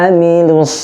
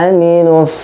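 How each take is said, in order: Both takes have the same delivery.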